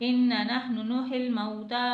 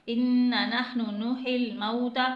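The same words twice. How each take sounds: No difference in how they are said.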